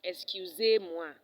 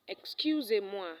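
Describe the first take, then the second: First: Slow Excusez-moi, very loud blast on ZEZ; exaggerated learner's Excusez-moi, weight thrown on ZEZ; wrong tone demo. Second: Slow, loud Excusez-moi, raised on CU and falling away; correct tone demo. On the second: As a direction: lift CU in Excusez-moi, then let it fall. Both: Shown as a demonstration. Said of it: "There is a difference in the rising and the falling tone".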